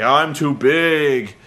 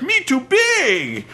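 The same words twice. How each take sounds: First: Slow lumbering giant voice; lightly voiced slow big man; slow dopey giant. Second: High, slow dumb caveman voice; hammed-up caveman giant. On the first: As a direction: drag it out like a dim giant. Big Show demonstrating he is too big. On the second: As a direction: squeeze it out high and slow like a dim brute. Mocking Big Show as caveman.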